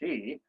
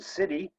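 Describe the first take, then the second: First: The word is not pronounced like 'city'. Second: The word is pronounced like 'city'. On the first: The speaker calls it right. "it's really called Sidhe" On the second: The speaker calls it wrong. "I pronounced it City for quite a long time"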